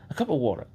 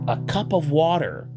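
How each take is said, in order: First: It is said in a British English accent. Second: It is said in an American English accent. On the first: "let the words kind of uh, round out" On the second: "trying to get their American accent"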